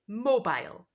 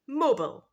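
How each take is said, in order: First: It is said in a British English accent. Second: It is said in an American English accent.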